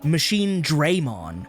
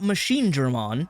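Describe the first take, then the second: First: The first syllable of Dramon is strongly emphasized. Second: The first syllable of Dramon is not emphasized. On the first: The speaker calls it wrong. "with emphasis on the Dre" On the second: The speaker calls it right. "not Machine Dramon"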